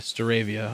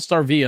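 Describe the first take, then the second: First: The name is said with four syllables. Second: The name is said with three syllables. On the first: The speaker calls it right. "that's what I thought" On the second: The speaker calls it wrong. "I heard a lot of people call it Starvia"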